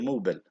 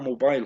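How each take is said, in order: First: The last syllable is a short 'bul'. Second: The last syllable sounds like 'mile'. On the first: The speaker calls it right. "هي موبل" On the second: The speaker calls it wrong. "احنا بنقرأها موبايل خطأ"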